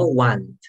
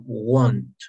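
First: "want" with an open ah vowel; pronunciation of want. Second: "want" said slowly as won't, rounded o; pronunciation of won't. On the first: Teacher showing what to avoid, "want" with an open vowel. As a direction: say "want" as wahnt, the wrong word here. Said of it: "sino want". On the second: Teacher correcting the word, "want" said slowly like won't. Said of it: "Entonces pronunciamos bien". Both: Shown as a demonstration.

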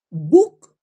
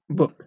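First: "book" with a clear long oo, lifted; full U in "book". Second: "book" short, vowel between U and O; normal "book" vowel. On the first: Teacher tests whether book is understood, full oo vowel. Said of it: "Libro se pronuncia sí o sí book". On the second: Teacher gives the normal form, short lax vowel. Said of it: "lo normal es book". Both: Shown as a demonstration.

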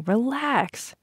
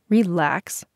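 First: High, easygoing brush-off; dismissive reassurance. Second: Disbelieving repeat in usual pitch; incredulous echo. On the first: Bobby brushing off Vanessa's worry. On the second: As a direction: throw "Relax" back as a challenge. Vanessa throws his word back. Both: A narrator's reading.

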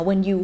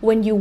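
The two takes are said the same way.

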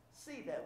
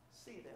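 First: Softly stressing see; quietly pressing the word see; soft emphasis. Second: See almost whispered, very soft; near whisper. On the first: Preacher softly urges the congregation to see others. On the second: Preacher hushes the repeat so the point sinks in. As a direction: drop to a hush on see. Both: Real, not acted. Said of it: "You know what that means?".

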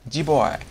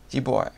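First: Giveaway said higher and louder with a firm fall; a decisive Giveaway landing down at the end; firm final try. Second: Giggling through the word Giveaway; Giveaway said through a chuckle; laughing retry. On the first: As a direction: commit to Giveaway, punching it out. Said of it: "but anyway, I said it". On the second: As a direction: laugh as you say Giveaway again, with a falling end. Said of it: "No idea what that is". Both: Shown as a demonstration.

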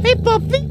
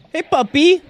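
First: Much higher squeaky puppy talk; baby talk to puppy. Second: Cheerful high pet greeting; cutesy greeting. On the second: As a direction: greet a puppy brightly. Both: Pretend.

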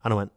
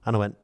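The two takes are said the same way.

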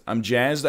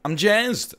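First: Said in the usual way. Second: High burst of excitement, louder; excited. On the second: Real, not acted. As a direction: pop the word up, thrilled. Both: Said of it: "here's how you can tell I'm excited".

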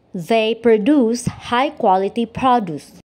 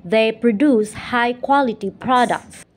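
First: First "produce" stressed on DUCE, second on PRO; verb then noun stress. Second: "produce" said pro-DUCE, stress on the second syllable; verb stress on proDUCE. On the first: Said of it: "each pair of words together". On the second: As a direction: land on the end of "produce" as a verb. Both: Shown as a demonstration.

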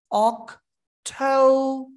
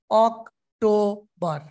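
First: অক্টোবর slow with অক then ঠৌ; stretched অক্টোবর ending on ঠৌ; correct British way. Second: অক্টোবর with three syllables said equally, slowly; even, flat অক্টোবর with hard ট; wrong Bangladeshi way. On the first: Teacher corrects the students with the right অক্টোবর. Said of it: "এখানে অক, then ঠৌ". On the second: Teacher mimics students' wrong equal-syllable অক্টোবর. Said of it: "ভুল উচ্চারণ।". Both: Shown as a demonstration.

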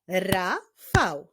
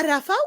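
First: "Rafał" split into ra, fał with a clear gap; syllable by syllable. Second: Said in the usual way. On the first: Shown as a demonstration. Teacher answering with the name's syllables, "Rafał" syllable by syllable. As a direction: break "Rafał" into two separate beats. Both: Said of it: "No i sylaby w imieniu".

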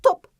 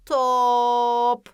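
First: Said in the usual way. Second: "top" with a long loud held o; stretched middle O. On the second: Shown as a demonstration. Teacher stressing the middle sound, long o in "top". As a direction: hold the o in "top" before closing on p. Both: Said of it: "Ortasına çok fazla vurguluyorum".

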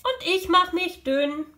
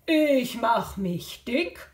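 First: High, thinned-down voice; thin little voice. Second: Slow, stretched-out fattened voice; puffed-up voice. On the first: Animal answering by making itself thin, high little voice. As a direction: squeeze yourself thin on DÜN. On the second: Jaguar making himself fat in the game, slow puffed-up voice. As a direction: puff yourself up on DICK. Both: Acted.

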